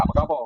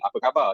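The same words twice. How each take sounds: First: "khabar" ending in O, "khabo"; Perak dialect ending. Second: Said in the usual way. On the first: Shown as a demonstration. Student shows how Perak people greet, "khabar" said as "khabo". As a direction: ask it Perak-style, final AR of "khabar" as O. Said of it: "kita kat Perak, kita tanya". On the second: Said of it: "Contoh macam khabar kan".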